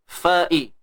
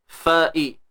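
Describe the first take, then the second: No difference in how they are said.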